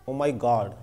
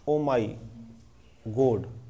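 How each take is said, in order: First: The vowel in God is an open aw. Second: The vowel in God is a closed o. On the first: "ये बड़ा ऑ होता है" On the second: "इसको लोग बोलेंगे गोड"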